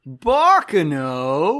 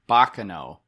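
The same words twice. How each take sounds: First: The voice rises at the end. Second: The voice falls at the end.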